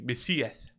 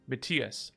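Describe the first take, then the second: First: The name is said with a lisp. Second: The name is said plainly, without a lisp. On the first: "with a lisp it would be Messias" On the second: "in Danish it was like be Matthias"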